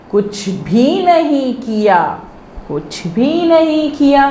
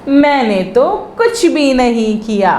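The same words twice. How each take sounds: First: कुछ भी नहीं किया said slowly, chunk by chunk, to be repeated; slow repeat drill. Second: Said in the usual way. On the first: Shown as a demonstration. Teacher to pupils, slow drill phrase for echoing. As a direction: spell out कुछ भी नहीं किया for the class to echo. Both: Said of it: "दोहरा रहे हैं ना".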